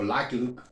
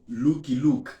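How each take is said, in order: First: The name is said with an English-like pronunciation. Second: The name is said with a Spanish-like pronunciation. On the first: "o Lucky Luke" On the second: "de la forma más como nosotros tradicionalmente lo pronunciamos"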